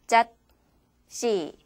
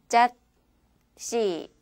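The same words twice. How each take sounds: No difference in how they are said.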